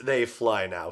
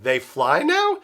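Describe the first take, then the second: First: Said in the usual way. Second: THEY FLY NOW lifted into a surprised question, higher pitch; puzzled question, pitch climbing on NOW. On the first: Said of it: "the way Finn delivers his "They fly now". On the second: Retold or imitated. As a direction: ask it with NOW rising high. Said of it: "He delivers it as a question".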